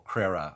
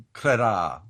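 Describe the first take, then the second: First: "Crerar" with a short, weak "uh" ending; alternative pronunciation. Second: "Crerar" with a long, open "ah" ending; alternative pronunciation. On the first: Second guess at the leader's name, "Crerar" ending in a light "uh". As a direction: say "Crerar" as KRERR-uh, stress up front. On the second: Trying out the leader's name, "Crerar" ending in a full "ah". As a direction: say "Crerar" as kreh-RAAR, louder, ending drawn out. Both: Shown as a demonstration. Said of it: "not sure how it's pronounced".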